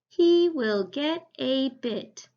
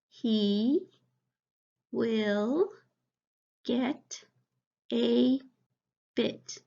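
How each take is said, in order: First: It is read smoothly and fluently. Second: It is read slowly, word by word.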